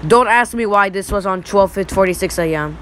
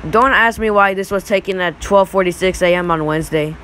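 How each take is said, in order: First: Voice crack. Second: Said in the usual way. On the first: Real, not acted. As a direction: voice cracking mid-sentence. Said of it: "that was a voice crack".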